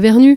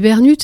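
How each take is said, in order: First: The name ends on a vowel, no t sound. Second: The name ends with an audible t sound. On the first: This is the standard way others expect the name. "mais non, on dit Bernu" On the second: This is the local way of saying the family name. "comme ici, on prononce toutes les lettres"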